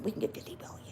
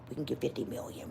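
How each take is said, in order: First: Whispered echo of the plan; scheming whisper, repeated. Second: Scheming whisper. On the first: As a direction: repeat it under the breath. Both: Retold or imitated. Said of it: "let me tell you what happened".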